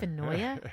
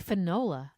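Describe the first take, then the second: First: The middle consonant is a Y sound. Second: The middle consonant is an L sound. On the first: The speaker calls it wrong. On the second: The speaker calls it right. "it should be Finola"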